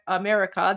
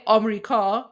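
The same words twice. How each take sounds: First: Said in the usual way. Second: "Amrika" in three syllables, AHM-ri-ka; Persian pronunciation. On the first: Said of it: "in English, it's". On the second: Shown as a demonstration. Streamer contrasting Persian with English, three-syllable "Amrika". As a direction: drop a syllable and open the first vowel of "Amrika". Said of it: "But in Persian, we say".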